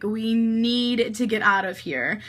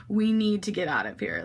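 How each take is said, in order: First: Slower, NEED drawn out for emphasis; stress on NEED. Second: Said in the usual way. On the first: Retold or imitated. Urging friends to leave, stress on NEED. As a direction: lean hard and long on "need".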